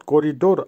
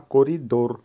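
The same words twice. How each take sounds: First: করিডোর run together as one quicker word; wrong, non-Russian করিডোর. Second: করিডোর split into করি and ডোর, falling at the end; teacher's corrected করিডোর, settling on ডোর; correct Russian করিডোর. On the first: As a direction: say করিডোর joined up, as the example to avoid. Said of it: "not করিডোর". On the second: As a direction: say করিডোর carefully in two parts. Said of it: "উচ্চারণ একটু পার্থক্য হবে". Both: Shown as a demonstration.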